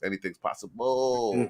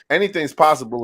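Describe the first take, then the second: First: It is said in a put-on imitation voice. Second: It is said in the speaker's ordinary voice.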